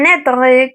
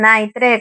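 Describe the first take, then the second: First: It is pronounced with French sounds. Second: It is pronounced letter by letter with Spanish sounds. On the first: "como nombre" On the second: "como se escribe literalmente y como se pronunciaría en español"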